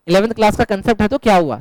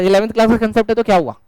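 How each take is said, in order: First: Said in the usual way. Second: Rattled off fast, brushing it aside; quick reassurance. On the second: Shown as a demonstration. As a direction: say it quickly, like it's no big deal. (जल्दी-जल्दी, बात टालते हुए)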